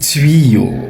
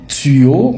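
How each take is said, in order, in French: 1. La première syllabe a une semi-voyelle 'ui'. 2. La première syllabe n'a pas de semi-voyelle 'ui'. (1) "en réalité on dit tuyau, comme dans nuit" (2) "Beaucoup de gens disent"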